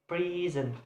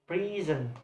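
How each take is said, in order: The two takes are said the same way.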